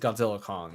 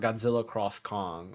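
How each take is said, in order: First: The X is silent between the two names. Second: The X is read aloud as 'cross'. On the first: The speaker calls it right. "It's Godzilla Kong" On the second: The speaker calls it wrong. "It's not Godzilla cross Kong"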